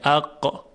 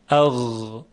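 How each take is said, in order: First: It ends in a hard, stopped q sound. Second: It ends in a soft, voiced gh sound. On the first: The speaker calls it wrong. "این قاف هست و غین نیست" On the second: The speaker calls it right. "غین در اینجا ساکن هست، به بهترین وجهی میشه اون رو تلفظ کرد"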